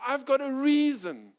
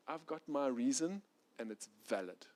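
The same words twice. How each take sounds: First: Much higher, louder, heated "I've got a reason"; loud insistence. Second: Said in the usual way. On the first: Retold or imitated. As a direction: push "I've got a reason" hard as a proud claim. Pride's loud justification.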